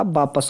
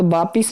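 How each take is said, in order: First: वापस with short a, baa-pas; corrected pronunciation. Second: वापिस with i, baa-pis; wrong pronunciation. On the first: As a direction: say 'pas' in वापस. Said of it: "वो होता". (वापस में 'पस' बोलें) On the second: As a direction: say 'pis' in वापिस. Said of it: "नहीं होता". (वापिस में 'पिस' बोलें) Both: Shown as a demonstration.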